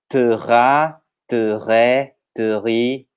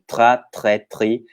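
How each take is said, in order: First: The syllables are said slowly. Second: The syllables are said quickly. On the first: "Poderia fazer mais devagar" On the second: "começar a acelerar a velocidade"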